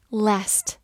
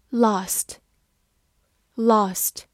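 First: "last" with the flat "a" of "cat"; American short-A "last"; American pronunciation. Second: "last" with a long "ah", British style; British broad-A "last"; British pronunciation. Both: Shown as a demonstration. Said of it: "美式发音".

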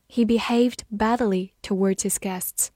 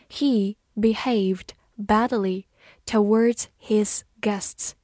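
First: Said in the usual way. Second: Slow, word by word with gaps; slow reading. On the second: Shown as a demonstration. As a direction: read it out slowly for learners, pausing between words. (慢慢地逐词朗读) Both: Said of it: "慢慢来读".

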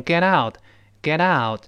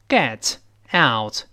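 First: "get out" joined as geh-DOUT, slowly; slow "get out" run into one word; linked and voiced. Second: "get out" as two separate words with crisp t; "get out" unjoined, each t sounded; unlinked words. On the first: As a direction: link "get out", softening the middle t to a d. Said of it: "强烈的连读加浊化". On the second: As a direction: say "get", pause, then "out". Words shown apart before linking. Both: Shown as a demonstration.

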